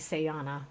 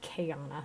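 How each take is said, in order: First: The name begins with an S sound. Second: The name begins with a K sound. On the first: The speaker calls it wrong. "People here often call me Sayana" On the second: The speaker calls it right. "It's actually supposed to be Kayana"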